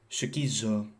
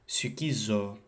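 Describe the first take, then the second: Both takes have the same delivery.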